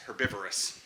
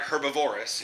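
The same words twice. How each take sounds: First: Said in the usual way. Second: Herbivorous said as her-buh-VOR-us; mispronounced word. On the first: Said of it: "It's not herbivorous". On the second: Shown as a demonstration. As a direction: stress the third syllable of herbivorous, "VOR". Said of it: "That's the way you say that".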